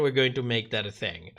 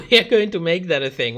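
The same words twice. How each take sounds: First: Said in the usual way. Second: Laughing repeat. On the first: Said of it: "repeat, calmer and lower". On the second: Real, not acted. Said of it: "repeat, laughing and fast".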